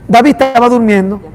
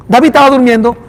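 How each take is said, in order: Both takes have the same delivery.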